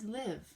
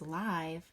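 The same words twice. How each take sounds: First: The vowel is a short I sound. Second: The vowel is a long I sound. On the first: To reside somewhere. "or it would be an oddball as live" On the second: Happening in real time, as on TV. "it either goes here as live"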